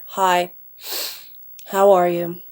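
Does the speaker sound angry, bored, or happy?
bored. It is said in a flat, bored tone. The person feels low or uninterested. "melancholy or kind of bored, their tone becomes a lot flatter"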